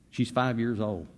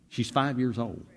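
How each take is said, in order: Both takes have the same delivery.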